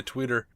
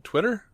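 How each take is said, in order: First: Twitter slipped into "tweeter"; mispronounced Twitter. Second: Twitter with a short "i", as TWIT-er, pitched up as a question; higher, questioning "TWIT-er" for Twitter; questioning correction. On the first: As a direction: say Twitter with a long "ee", as TWEE-ter. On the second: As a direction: try out Twitter as TWIT-er, high and unsure. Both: Real, not acted. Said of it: "that doesn't sound right".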